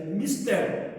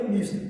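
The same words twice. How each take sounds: First: "mistério" said mis-TÉ-rio, stressed on TÉ; pronúncia correta: "mistério" com acento em TÉ; correct pronunciation. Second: "mister" said as mis-TER, stressed on the last syllable; pronúncia errada: "mister" acentuado no fim; wrong pronunciation. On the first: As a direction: say "mistério" clearly with stress on TÉ and a full final "rio". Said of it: "A palavra é mistério". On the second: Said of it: "mister é uma pronúncia errada". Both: Shown as a demonstration.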